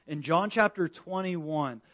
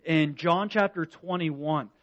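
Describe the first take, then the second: No difference in how they are said.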